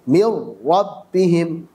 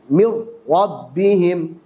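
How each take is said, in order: The two takes are said the same way.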